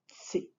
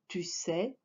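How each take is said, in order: First: The words are contracted into one syllable. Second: Both syllables are said in full.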